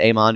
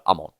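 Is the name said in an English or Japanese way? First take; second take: English; Japanese. First: The name is pronounced in an English way. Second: The name is pronounced in a Japanese way. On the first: This is how the dub says it. The speaker calls it wrong. "I don't know why they said Amon because it sounds way dumber" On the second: This follows the original language. The speaker calls it right. "if you're going strictly off the Japanese"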